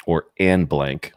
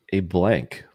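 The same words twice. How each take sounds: First: Slow, drawn-out "an" before the blank; stress on "an". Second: Said in the usual way. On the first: Shown as a demonstration. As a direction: lean on "an" and stretch it as a hint. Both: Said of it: "hint that it starts with a vowel".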